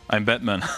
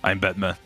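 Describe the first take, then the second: First: It is said in a normal speaking voice. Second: It is said in a put-on character voice. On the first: The speaker calls it wrong. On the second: The speaker calls it right.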